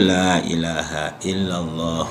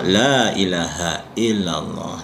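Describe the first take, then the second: First: The repetitions run together without pauses. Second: The phrase stands alone with a breath pause. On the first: "Itu kalau digandeng" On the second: "kalau diputus-putus"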